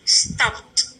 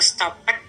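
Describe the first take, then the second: First: The ending is a plain T sound. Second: The ending is an extra syllable like "it". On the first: The speaker calls it right. "seperti berakhir dengan T saja" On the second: The speaker calls it wrong. "tidak boleh dibaca stop it"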